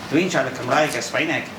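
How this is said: Spoken in a Spanish-tinged Welsh accent, fronted. "they would say ... It's when you hit the front of the mouth"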